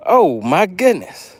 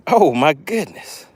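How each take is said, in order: Both takes have the same delivery.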